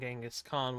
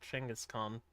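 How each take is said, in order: First: The name has an American-style pronunciation. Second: The name has its native-style pronunciation. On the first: This is how Americans say the name. The speaker calls it wrong. "we call, uh, Genghis Khan" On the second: This is what the name truly is. The speaker calls it right. "when in truth he's called"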